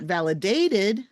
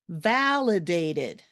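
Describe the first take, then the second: First: The stress is on a later syllable. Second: The stress is on the first syllable. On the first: The speaker calls it wrong. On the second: The speaker calls it right. "the stress comes a little earlier"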